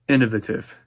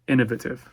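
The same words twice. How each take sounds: First: The word is said with a British pronunciation. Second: The word is said with a British pronunciation.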